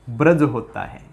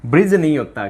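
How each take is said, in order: First: ब्रज said with a short a, no i; ब्रज with a plain short a; correct ब्रज. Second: ब्रिज said with an i vowel; ब्रिज with an i sound; wrong ब्रिज. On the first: (ब्रज का शुद्ध उच्चारण) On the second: (ब्रिज का गलत उच्चारण) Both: Shown as a demonstration.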